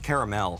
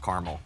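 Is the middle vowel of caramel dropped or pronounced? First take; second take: pronounced; dropped. First: The middle vowel is clearly pronounced. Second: The middle vowel is dropped. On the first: This is real, rich caramel. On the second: This is ordinary, plain caramel.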